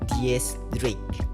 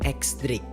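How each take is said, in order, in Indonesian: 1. Bagian pertama terdengar seperti kata 'Dies'. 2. Bagian pertama terdengar seperti huruf X. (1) "tapi Dies Drake" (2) "sebenarnya bukan disebut X Drake"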